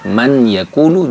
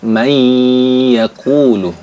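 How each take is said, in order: First: The n sound is kept before the y. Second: The n merges into a held y.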